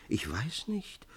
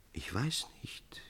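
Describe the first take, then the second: First: Gently voiced, a bit slow, rising; soft puzzled. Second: Hushed, breathless whisper. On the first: Amandus gently puzzled at Ännchen's tears, soft. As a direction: say it softly, puzzled. Same words, softly voiced. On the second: Amandus whispering to weeping Ännchen, hushed. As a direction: breathe it almost without voice. Lover whispers his reply. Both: A narrator's reading.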